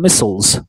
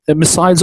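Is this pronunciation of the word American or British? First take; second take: American; British. First: The word is said with an American pronunciation. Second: The word is said with a British pronunciation. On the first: "or American pronunciation" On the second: "like in English pronunciation"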